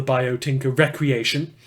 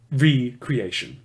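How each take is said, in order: First: Recreation said as rek-ree-AY-shun, like leisure recreation; misread name. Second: Recreation said slowly as ree-creation, re- plus creation; slow, careful re-creation, each part separate; corrected pronunciation. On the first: Briefing reporter misreads the group's name, the leisure way. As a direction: read Recreation as the everyday word for leisure. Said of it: "that should be pronounced recreation". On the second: Briefing reporter corrects himself, slow and careful. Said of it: "Sorry, that should be pronounced". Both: Shown as a demonstration.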